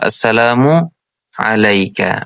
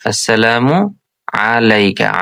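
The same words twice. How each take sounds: The two takes are said the same way.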